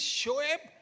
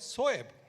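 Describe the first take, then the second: First: The name begins with a sh sound. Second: The name begins with an s sound. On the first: This is the correct pronunciation. The speaker calls it right. "it is Shoaib" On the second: This is how a teammate mispronounced it. The speaker calls it wrong. "it was always Soeb"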